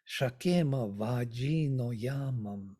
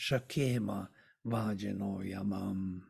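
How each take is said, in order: First: The stress falls on the words' own accented syllables. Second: The stress follows a regular alternating metrical beat. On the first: "the stress, the accent is different" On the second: "I'm reading uh, with the Anushtup uh, iambic meter"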